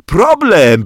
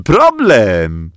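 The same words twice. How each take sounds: First: High, loud, giggly "Problem". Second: "problem" dropping back down, still loud; lower problem. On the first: Bodzio giggles to the teacher, high and loud. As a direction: say "Problem" high through giggles, holding your belly. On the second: Bodzio repeats the word to the teacher, lower. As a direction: let the second "problem" fall lower. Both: Acted. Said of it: "tłumaczył, trzymając się za brzuch".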